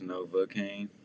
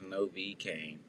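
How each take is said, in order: First: The first name ends in an 'uh' sound. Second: The first name ends in an 'ee' sound. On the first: The speaker calls it right. "but I guess it's Nova Kane" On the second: The speaker calls it wrong. "I've been saying it wrong, but I thought it was Novi Kane"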